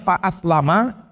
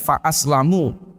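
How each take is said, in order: First: The word ends with an 'a' vowel. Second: The word ends with a 'u' vowel. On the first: "bisa dibaca fa'aslama dengan mim difathahkan" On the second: The speaker himself is kept safe. "atau bisa dibaca dengan fa'aslamu"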